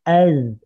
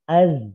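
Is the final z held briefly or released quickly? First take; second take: held; released quickly. First: The final z is held briefly, flowing. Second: The final z is released very quickly. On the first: The speaker calls it right. "tahan dulu" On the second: The speaker calls it wrong. "ini terlalu cepat dilepas, jangan ya"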